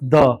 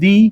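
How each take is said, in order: First: The vowel is a short uh sound. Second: The vowel is a long ee sound. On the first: "sometime they pronounce it द" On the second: "sometimes people pronounce it दी"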